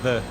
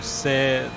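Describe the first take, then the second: First: The word begins with a TH sound. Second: The word begins with an S sound. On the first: The speaker calls it right. "instead of the" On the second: The speaker calls it wrong. "most people just pronounce it as a S"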